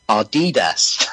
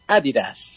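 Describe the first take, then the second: First: The name is said the usual American way. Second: The name is said the German way. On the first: The speaker calls it wrong. "if you're an American, you're probably pronouncing the sneaker brand Adidas as Adidas. That's completely wrong" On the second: The speaker calls it right. "It's pronounced Adidas"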